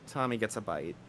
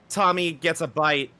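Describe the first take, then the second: First: Much softer crash call; subdued repeat. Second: Higher, slow announcement; emphatic crash call. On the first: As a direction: let the call sink down quietly. Same call repeated, dropped down. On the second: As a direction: draw the call out with force. Crash call, then quiet repeat. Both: Real, not acted.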